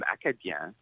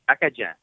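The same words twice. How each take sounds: First: It is pronounced the standard French way. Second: It is pronounced the local, Cajun-like way. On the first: "which is the quote-unquote correct way" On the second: "I'm saying Acadien. Kind of like Cajun"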